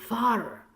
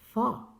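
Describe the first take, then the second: First: The R after the vowel is pronounced. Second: The R after the vowel is silent. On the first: The speaker calls it wrong. "no need" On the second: The speaker calls it right. "You can just say F A R, far"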